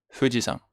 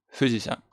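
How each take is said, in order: Both takes have the same delivery.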